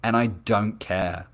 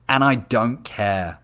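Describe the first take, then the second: First: Slow repeat, "I" pressed in "and I don't care"; stress on I. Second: Slow, weighted I in "and I don't care"; stress on I. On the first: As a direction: say "and I don't care" slowly, weight on "I". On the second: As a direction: lean hard on "I", slow and final. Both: Real, not acted.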